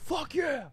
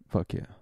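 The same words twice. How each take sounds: First: It is said with strong, forced emphasis. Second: It is said casually, with little effort. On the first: The speaker calls it wrong. "he didn't go" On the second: The speaker calls it right. "it's just like this effortless"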